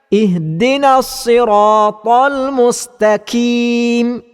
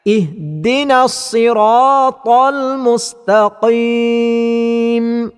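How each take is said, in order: First: Mustaqim has a front k sound. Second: Mustaqim has a deep back q sound. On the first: The speaker calls it wrong. "kesalahannya ialah ... telah mengubah huruf qaf kepada huruf kaf" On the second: The speaker calls it right. "bacaan yang betulnya"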